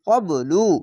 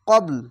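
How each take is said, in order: First: The word ends with a short u vowel. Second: The word ends on the consonant l. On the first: The reading continues without stopping. "লামপেশ লু কবলু" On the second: The reader stops at this word. "এই পেশটিকে বাদ দিয়ে একটি সাকিন দিতে হবে"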